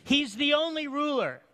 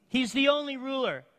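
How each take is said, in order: Both takes have the same delivery.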